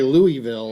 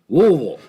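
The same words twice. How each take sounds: First: It is said clearly, with each sound distinct. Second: It is said mumbled, with slurred sounds. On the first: This is how outsiders say it. "like we grew up" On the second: This is how local people say it. "make it sound like I have some marbles rolling around in my mouth"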